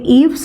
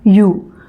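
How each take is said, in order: First: It starts with a vowel and ends in 'v'. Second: It starts with a 'y' sound, like 'you'. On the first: The speaker calls it wrong. "मैं ईव समझ रही थी" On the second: The speaker calls it right. "यानी ये य और ऊ"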